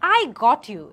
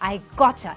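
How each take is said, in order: First: The t and y sounds stay separate. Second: The t and y blend into ch. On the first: "এটা না বলে" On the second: "টা এবং ইয়া blend হয়ে চা sound তৈরি করেছে"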